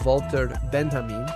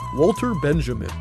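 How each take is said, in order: First: The name is said with a German accent. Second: The name is said with an American accent. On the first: "in my best German accent" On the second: "or in my worst American accent"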